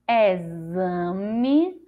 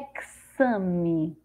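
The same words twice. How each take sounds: First: The x is pronounced as a z sound. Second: The x is pronounced as a ks sound. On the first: "com som de Z" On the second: "com som de Ceci"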